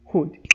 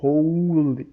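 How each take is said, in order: First: The L sound is left silent in the word. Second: The L sound is pronounced in the word. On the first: The speaker calls it right. "é would" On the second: The speaker calls it wrong. "não vai ser hold"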